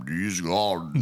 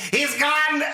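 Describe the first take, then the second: First: Low, slow actor impression; Christopher Lee. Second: Very high freak-out cry; Loomis. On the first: Asked to redo the Loomis line, slow low impression. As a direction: draw it out deep and slow. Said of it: "Can you do a Christopher Lee?". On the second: Retold or imitated. Loomis giving her no time to answer, panicked impression. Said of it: "he just freaks the fuck out".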